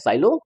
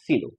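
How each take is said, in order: First: The first vowel sounds like 'eye'. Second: The first vowel sounds like 'ee'. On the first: This reading follows the written spelling. "लिखते हैं साइलो" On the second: This is how the name is actually read. "पढ़ते हैं सीलो"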